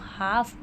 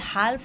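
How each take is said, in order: First: The L sound is left silent in the word. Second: The L sound is pronounced in the word. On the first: The speaker calls it right. "हम इसको हाफ पढ़ रहे हैं" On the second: The speaker calls it wrong. "हाल्फ से नहीं पढ़ा"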